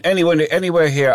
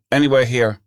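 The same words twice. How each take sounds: First: A touch higher, pressing the driver; insistent repeat. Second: Said in the usual way. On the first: Retold or imitated. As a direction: repeat it, pushing a little harder. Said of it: "And I went". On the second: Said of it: "and I said to the bus driver".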